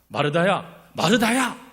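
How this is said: It is said in a scolding tone.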